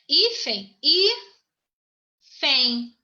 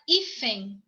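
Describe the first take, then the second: First: "Hífen" said whole, then broken into hí and fen; teacher dividing "hífen" as hí, pause, fen; split into syllables. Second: Said in the usual way. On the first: Shown as a demonstration. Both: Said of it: "A primeira sílaba é fen".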